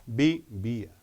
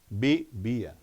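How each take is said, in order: No difference in how they are said.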